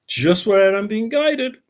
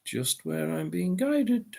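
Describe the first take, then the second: First: Said in the usual way. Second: Whispering. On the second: Shown as a demonstration. Repeats line as a whisper.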